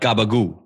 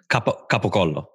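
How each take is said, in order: First: Voiced G sounds and the ending clipped. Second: Hard K sounds with every syllable said fully. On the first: The speaker calls it wrong. "There's no G in there" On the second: The speaker calls it right.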